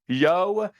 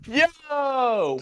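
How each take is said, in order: First: It is said as a flat statement. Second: It is said as an excited exclamation.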